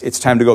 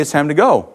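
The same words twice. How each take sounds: First: Lightly voiced dad calling his son to leave; calling a toddler. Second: Said in the usual way. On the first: Dad at the mall calls his toddler son to leave, mild coaxing call. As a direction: coax the little boy along, mildly. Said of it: "say, with that speaker, as I say". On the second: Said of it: "I would just say".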